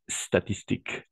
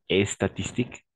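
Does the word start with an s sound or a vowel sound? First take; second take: s sound; vowel sound. First: The word begins directly with the s sound. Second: An extra vowel is added before the s. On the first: The speaker calls it right. "On va commencer avec le S" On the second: The speaker calls it wrong. "On va commencer avec le S, pas et statistique"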